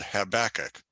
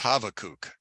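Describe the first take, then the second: First: The middle consonant is a B sound. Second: The middle consonant is a V sound. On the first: This is the name as used in Christianity. "it's called Habakkuk" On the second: This is the prophet's real name. "the B is actually a, a V sound"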